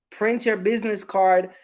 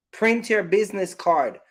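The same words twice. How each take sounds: The two takes are said the same way.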